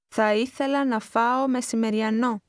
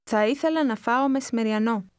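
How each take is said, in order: First: It is said slowly and carefully. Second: It is said at a rapid conversational speed.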